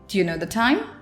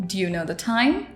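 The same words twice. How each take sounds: First: "Do you" blends into one short sound. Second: The same.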